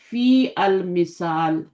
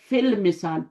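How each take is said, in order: First: The 'a' of 'al' is pronounced separately. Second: The 'a' of 'al' is dropped and linked. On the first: The speaker calls it wrong. "फ़ी अल मिसाल कहना सही है? नहीं सही।" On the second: The speaker calls it right. "ये अपनी हरकत गिराएगा"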